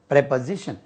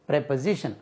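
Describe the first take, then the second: First: The first syllable has a short 'eh' vowel. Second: The same.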